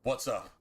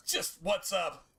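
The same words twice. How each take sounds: First: Said in the usual way. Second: Called-out hello pitched up high; cheery hello to a friend's mom; high friendly greeting. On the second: Real, not acted. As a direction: greet her brightly, up high. That's just James's mom.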